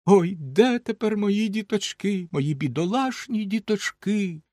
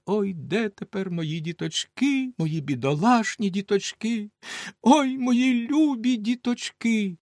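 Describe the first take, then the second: First: Slow, higher wail of grief; crying mother. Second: Slow, high lament rising on ой; wailing mother. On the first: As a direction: mourn the lost children aloud. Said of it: "І вона голосно заплакала". (материн плач, повільно) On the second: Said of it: "ридала, голосила і все казала". (повільне голосіння матері) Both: Acted.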